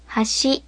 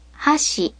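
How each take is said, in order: First: Hashi rising on the second syllable; "hashi" with ha low, shi high; low-high pitch accent. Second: Hashi falling on the second syllable; "hashi" with ha high, shi low; high-low pitch accent. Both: Shown as a demonstration. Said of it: "first and second syllables always have a different pitch".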